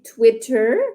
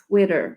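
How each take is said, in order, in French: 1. Le T du milieu est net et entièrement relâché. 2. Le T du milieu est doux et battu. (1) "ça sonne plus en, euh, bri- britannique" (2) "si je veux vraiment parler l'anglais d'Amérique du Nord"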